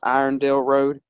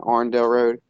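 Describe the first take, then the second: First: The first part is said as two syllables, 'iron'. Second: The first part is squeezed into one syllable, 'arn'.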